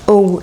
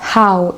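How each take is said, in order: First: The word starts directly with a vowel. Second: The word starts with a breathy h sound. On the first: The speaker calls it wrong. "c'est pas oh" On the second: The speaker calls it right. "c'est how. Et il y a une sorte d'air qui sort avec le H"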